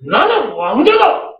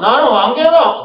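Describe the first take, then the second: First: It is said proudly, with conviction. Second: It is said flatly, as mere words.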